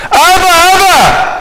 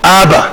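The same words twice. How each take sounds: First: High, drawn-out mock cry; pitched-up plea, voiced as a child. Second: Said in the usual way. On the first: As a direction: imitate a small child calling for a parent. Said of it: "זה מה שהוא צועק". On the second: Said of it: "מה צועק הילד בן שלוש?".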